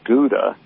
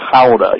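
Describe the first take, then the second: First: It starts with a plain hard G sound. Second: It starts with a throaty, grunting rasp. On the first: The speaker calls it wrong. "it's not Gouda in the Netherlands" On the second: The speaker calls it right. "You got to kind of grunt a little bit as you say it"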